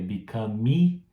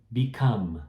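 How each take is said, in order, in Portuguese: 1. Termina com uma vogal extra depois do m. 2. Termina no som do m. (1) "você vê que eu não falei become" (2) "esse E também no final é mudo"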